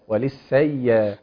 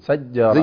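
First: The ya sound is stretched out smoothly. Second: The ya sound is clipped short and pressed. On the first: The speaker calls it right. "حرف قابل للمط والتطويل" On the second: The speaker calls it wrong. "أحيانا بنسمع بعض القراء بيجزها"

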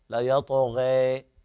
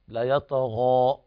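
First: The final vowel leans fully toward an e sound. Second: The final vowel is a fully open a sound. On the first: "الإمالة" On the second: "هذا هو الفتح"

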